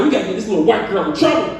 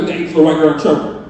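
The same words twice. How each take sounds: First: Fast, urgent scheming; fast plotting to his wife; rushed plotting. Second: Even faster, lower scheming; rapid plotting with wife. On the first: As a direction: rattle it off like a plan. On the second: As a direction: blurt it out in a rush. Repeated plotting. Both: Retold or imitated.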